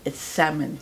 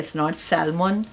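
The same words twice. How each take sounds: First: Salmon with a silent L, "sam-un"; correct pronunciation. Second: Salmon with the L sounded, said slowly; "salmon" pronounced with a clear L; wrong pronunciation. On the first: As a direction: drop the L in "salmon". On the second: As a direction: say "salmon" as it is spelled, L included. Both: Shown as a demonstration. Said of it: "L is silent".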